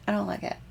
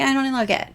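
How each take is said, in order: First: Soft repeat. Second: Said in the usual way. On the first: Real, not acted. Repeated softer, self-teasing.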